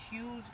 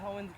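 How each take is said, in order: First: The name is said as one syllable, 'hughes'. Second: The name is said as two syllables, 'ho-ens'. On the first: It is how the locals say it. The speaker calls it right. "but it's Hughes Greenhouse" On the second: It follows the spelling. The speaker calls it wrong. "for me, I say Hoens Greenhouse"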